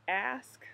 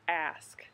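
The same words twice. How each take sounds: First: The word ends with an s then k sound. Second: The same.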